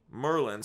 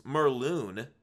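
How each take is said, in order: First: Said in the usual way. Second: Merloon with a long oo in the second syllable, like mer-LOON; slip of the tongue. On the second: Real, not acted. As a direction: trips on the name and says Merloon.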